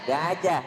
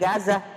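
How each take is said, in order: First: The middle consonant is a j sound. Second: The middle consonant is a z sound. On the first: The speaker calls it right. "Ija satu j, gajah" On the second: The speaker calls it wrong. "bukan gazah"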